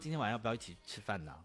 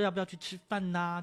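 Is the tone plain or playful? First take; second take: plain; playful. First: It is said in a plain, normal tone. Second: It is said in a cute, playful tone.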